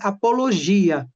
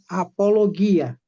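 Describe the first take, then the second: First: The g is soft, like the s in measure. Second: The g is hard, like the g in go. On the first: This is the Portuguese pronunciation. "nós pronunciamos em português apologia" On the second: This is the Greek pronunciation. "mas em gregos é apologia"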